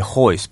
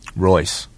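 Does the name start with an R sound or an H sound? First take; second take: H sound; R sound. First: The name starts with an H sound. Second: The name starts with an R sound. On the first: "we say hoist because that's how he says it" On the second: "There are people who think the R should be pronounced"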